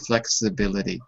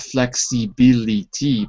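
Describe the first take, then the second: First: The vowels are short i sounds. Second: The vowels are long ee sounds. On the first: The speaker calls it right. "It's always an I sound, ... but flexibility" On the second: The speaker calls it wrong. "not flexibility"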